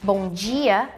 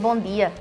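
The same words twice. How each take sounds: First: The d in dia sounds like j. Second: The d in dia is a hard d.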